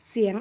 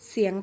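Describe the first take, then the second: Both takes have the same delivery.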